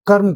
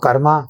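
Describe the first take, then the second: First: The word ends on a consonant sound. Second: The word ends with an added 'a' vowel. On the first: The speaker calls it right. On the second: The speaker calls it wrong.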